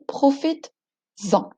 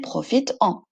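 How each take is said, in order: First: A z sound links the two words smoothly. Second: The two vowels meet with a break between. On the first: The speaker calls it right. "j'ajoute un S pour que ça donne profites-en" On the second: The speaker calls it wrong. "une coupure bizarre entre le verbe qui se termine par une voyelle et le mot suivant; C'est un peu lent à prononcer"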